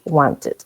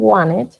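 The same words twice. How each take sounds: First: The middle t is clearly pronounced. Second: The middle t is a soft flap. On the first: "British wanted. Se pronuncia la T"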